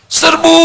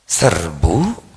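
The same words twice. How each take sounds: First: It is shouted with high energy. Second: It is said flat and low-energy.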